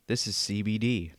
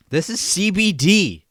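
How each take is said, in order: First: Soft, low murmur; quiet and low. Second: Announcer voice. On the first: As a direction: say it quietly, almost to yourself. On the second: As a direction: sell it like a TV announcer. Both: Shown as a demonstration. Two takes of same line.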